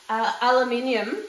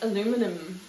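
First: It is said the Australian way. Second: It is said the American way. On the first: "in Australia" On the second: "in America it's"

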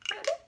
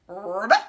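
First: It is said in a tiny high voice. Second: It is said in a normal speaking voice.

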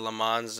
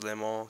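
First: The name is said with an American pronunciation. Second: The name is said with a French pronunciation. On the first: The speaker calls it wrong. "as the Americans call it" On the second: The speaker calls it right. "I think proper pronunciation is Le Mans because it's French"

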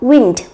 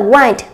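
First: The vowel is short, as in 'win'. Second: The vowel is a diphthong, as in 'wine'. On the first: It refers to moving air or blowing. "khi nó là một danh từ thì chúng ta sẽ đọc là wind" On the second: It refers to twisting, winding or wrapping. "cách phát âm là wind thì bản thân nó lại không mang nghĩa là thổi nữa mà nó là uốn lượn"

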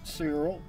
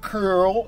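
First: The name is said the speaker's own way. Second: The name is said the Russian way. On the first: "I pronounce it Cyril" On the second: "If you're Russian, you might pronounce it as Curl"

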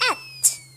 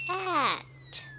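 First: It is said fast. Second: It is said at medium speed.

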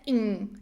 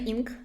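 First: The ending is said with a nasal n. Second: The ending is said without a nasal n. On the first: The speaker calls it right. "це ing, ing. Там n носовий" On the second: The speaker calls it wrong. "Це не ing"

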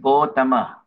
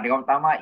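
First: The name is said in the other form, O dragged. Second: The name is said in its Sanskrit form. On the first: This is the form their own tradition uses. "For us, it's Gautama" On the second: This is the Sanskrit name. "Gautama is Sanskrit"

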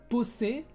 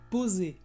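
First: The middle consonant is a hissing s sound. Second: The middle consonant is a buzzing z sound. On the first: The speaker calls it wrong. "No es poser" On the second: The speaker calls it right. "Poser con el sonido z"

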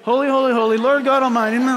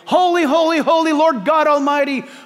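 First: It is said wearily, like a bored chore. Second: It is said fervently, with real conviction.

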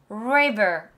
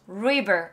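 First: It starts with a resonant English r sound. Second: It starts with a resonant English r sound.

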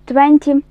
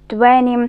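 First: Every sound is said clearly and separately. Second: The sounds are merged and reduced together.

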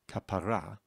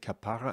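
First: The stress is on the final syllable. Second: The stress is on the second syllable. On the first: It means a religious redemption from sins. "you would put the emphasis on the final syllable" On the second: It is a term of endearment. "if you put the emphasis on the second syllable, then it's a word of endearment"

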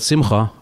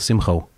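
First: The word ends with an open 'ah' vowel. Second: The word ends with a rounded 'oh' vowel. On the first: "instead of saying" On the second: "I put a lot of round sounds on the end of words"

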